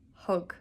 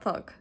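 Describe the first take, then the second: First: The word begins with an h sound. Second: The word begins with a th sound. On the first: The speaker calls it right. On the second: The speaker calls it wrong.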